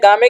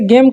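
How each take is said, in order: First: The final e is sounded; the vowel sounds 'aa'. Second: The final e is silent; the vowel sounds 'ay'. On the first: The speaker calls it wrong. "गामे क्यों नहीं पढ़ रहे हैं" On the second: The speaker calls it right. "अब देखिए इसे गेम क्यों पढ़ रहे हैं"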